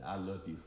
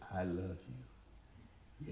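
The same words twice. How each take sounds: First: The voice is at normal pitch and pace. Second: The voice is low-pitched and very slow. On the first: The speaker calls it wrong. "no, that didn't come across that way" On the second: The speaker calls it right. "You gotta drop the voice down and say it really slow"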